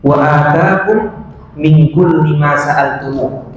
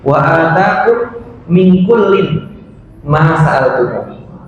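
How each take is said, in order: First: The word kulli ends without an n sound. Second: The word kullin ends with an n sound. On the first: God gives what you ask for. "tidak ada tanwin" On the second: God gives everything, even what you never asked for. "ada tanwin"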